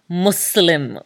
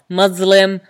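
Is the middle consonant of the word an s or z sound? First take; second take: s sound; z sound. First: The middle consonant is a hissed s sound. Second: The middle consonant is a buzzed z sound. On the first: The speaker calls it right. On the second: The speaker calls it wrong.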